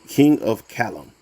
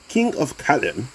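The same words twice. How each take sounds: First: It is said in the speaker's plain accent. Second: It is said in a put-on English accent.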